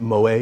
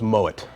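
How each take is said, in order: First: The name is pronounced in a French style. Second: The name is pronounced in a German style. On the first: The name is assumed to be French. The speaker calls it wrong. "People come and try to pronounce it Moet because it's French" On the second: The name is of German origin. The speaker calls it right. "the name is a German descent, so it's Moet"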